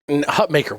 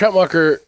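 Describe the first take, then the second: First: The last part sounds like 'maker'. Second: The last part sounds like 'mocker'. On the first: The speaker calls it right. "it's Maker. That's how he likes it pronounced" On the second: The speaker calls it wrong. "We keep saying his name wrong"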